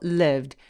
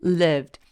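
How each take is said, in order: Both takes have the same delivery.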